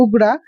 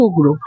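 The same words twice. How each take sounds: First: উগ্রা with a long open "aa" at the end; English pronunciation. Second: উগ্র with a rounded "o" at the end; Bengali pronunciation. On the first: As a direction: say উগ্রা the English way, ending in "-graa". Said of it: "ইংলিশে যখন আমরা pronounce করছি". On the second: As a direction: say উগ্র the Bengali way, ending in "-gro". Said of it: "বাংলাতে pronounce যখন করছে". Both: Shown as a demonstration.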